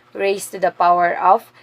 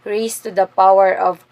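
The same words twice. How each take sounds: The two takes are said the same way.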